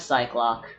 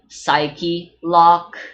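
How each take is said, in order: First: It is said as two syllables, 'sigh-clock'. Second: It is said as three syllables, 'sigh-key lock'. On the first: The speaker calls it wrong. "I always call them Cyclops" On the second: The speaker calls it right. "it's supposed to be Psyche Lock"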